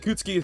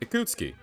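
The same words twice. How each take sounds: First: The name is said quickly. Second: The name is said at a normal pace. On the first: "try saying it three times faster" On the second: "Just say it like that"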